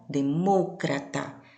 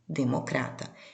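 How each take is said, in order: First: It carries the Spanish placement of the stressed syllable. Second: It carries the Portuguese placement of the stressed syllable. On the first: "No espanhol" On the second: "Na língua portuguesa"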